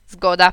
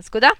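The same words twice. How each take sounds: First: Firm agreement. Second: Asking question. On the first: Mother agrees, powiedziała mama. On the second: Asks mother to agree. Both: A narrator's reading.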